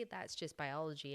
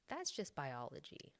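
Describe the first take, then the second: First: Said in the usual way. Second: Lilting, light sing-song tune; sing-songy voice. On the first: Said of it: "And I say". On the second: Shown as a demonstration. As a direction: say it like a light little melody. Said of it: "in, like, a sing-songy voice".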